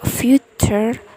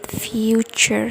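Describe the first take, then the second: First: The middle consonant is a plain T sound. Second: The middle consonant is a Ch sound. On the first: The speaker calls it wrong. "not future" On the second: The speaker calls it right. "the T sound becomes Ch sound"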